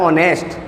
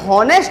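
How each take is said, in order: First: The word starts directly with a vowel sound. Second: The word starts with an audible h sound. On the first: The speaker calls it right. "इसको पढ़ने का सही तरीका होता है ऑनेस्ट। क्या पढ़ते से एच साइलेंट रहता है" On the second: The speaker calls it wrong. "इसे हॉनेस्ट नहीं पढ़ेंगे"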